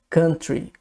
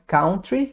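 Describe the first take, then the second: First: It is said with an English pronunciation. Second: It is said with a Brazilian Portuguese pronunciation. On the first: The speaker calls it right. "Então é country" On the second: The speaker calls it wrong. "não é country, igual o brasileiro costuma dizer"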